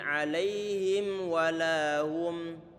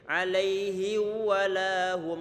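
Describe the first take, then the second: First: The m before walahum is clearly pronounced. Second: The m before walahum is merged away. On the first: The speaker calls it right. "Huruf mimnya dibaca dengan jelas" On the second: The speaker calls it wrong. "Tidak boleh"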